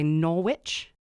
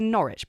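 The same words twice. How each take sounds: First: The name is said in an American way. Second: The name is said in a non-American way. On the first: "I imagine Americans would say Norwich" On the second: "I would say Norwich"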